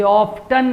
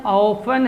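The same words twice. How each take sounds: First: "often" as OFF-ten, T pronounced; "often" with a clear hard t in the middle; often with T sounded. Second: "often" as OFF-en, no t; "often" said with the t left silent. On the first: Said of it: "टी silent है". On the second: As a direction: drop the t in "often". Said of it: "American accent में यहाँ पर टी silent है". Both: Shown as a demonstration.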